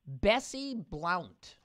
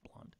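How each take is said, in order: First: The surname is said with an 'ow' vowel. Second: The surname is said with an 'uh' vowel.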